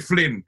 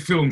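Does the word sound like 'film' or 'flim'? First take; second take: flim; film. First: The l sound comes before the vowel. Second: The l sound comes after the vowel. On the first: "she'd say flim" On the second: "She wouldn't say film"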